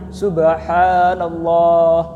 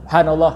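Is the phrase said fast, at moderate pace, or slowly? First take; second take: slowly; fast. First: It is said very slowly and drawn out. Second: It is said very quickly. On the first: "dia terlalu lemah" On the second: "kalau itu terlalu cepat"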